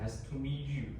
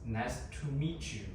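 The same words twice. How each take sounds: First: The t and y are said separately. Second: The t and y merge into a ch sound. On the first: "instead of" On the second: "we assimilate T with and Y, so it pronounces ch"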